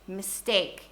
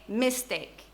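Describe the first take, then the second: First: The stress is on the second syllable. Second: The stress is on the first syllable. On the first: The speaker calls it right. "We say mistake. Tekan suku kata yang kedua" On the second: The speaker calls it wrong. "we don't say mistake"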